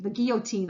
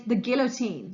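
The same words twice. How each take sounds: First: Put-on "guillotine" said the French way, the L sounds dropped, like kee-o-teen; mock-French "guillotine", kee-o-teen with a nasal end; French pronunciation. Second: Said in the usual way. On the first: Shown as a demonstration. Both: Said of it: "if I pronounce it properly with my French accent".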